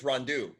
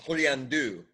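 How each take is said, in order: First: The name is pronounced with an English sound. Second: The name is pronounced with a French sound. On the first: "But I think it's" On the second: "Like like in French, it would be"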